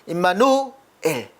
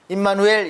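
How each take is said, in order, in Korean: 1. 두 부분으로 나눠서 끊어 말합니다. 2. 끊김 없이 한 단어로 말합니다. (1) "두 단어라는 것을 이렇게 발음을 잘해야 된다고" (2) "이렇게 하면 안 되는데"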